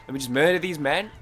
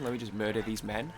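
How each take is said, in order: First: A punchier, louder go at the same line; mock-threatening gamer declaration; louder mock threat. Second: Said in the usual way. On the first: Real, not acted. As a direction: bark it out like a gamer's battle cry.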